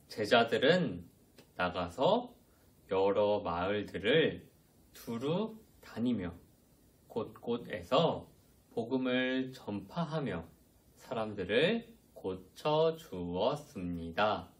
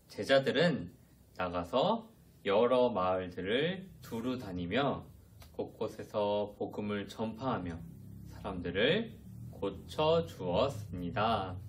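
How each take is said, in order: First: The sentence is read at a slow pace. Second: The sentence is read at a faster pace. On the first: "저랑 같이 천천히 읽어볼게요" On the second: "조금 더 빨리 읽어볼게요"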